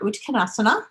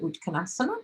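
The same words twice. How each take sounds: First: The word ends with a final vowel sound. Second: The word ends without the final vowel sound. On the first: "I want to say that A at the end" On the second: "for those who don't pronounce the A at the end"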